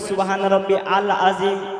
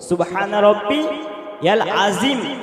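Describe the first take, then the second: First: Rabbi and al are said apart, no y sound. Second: Rabbi links into yal with a y sound. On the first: The speaker calls it wrong. "কেউ বলে ... আল নয়, আলিফ থেকে নয়" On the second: The speaker calls it right. "ইয়া থেকে পড়তে হবে"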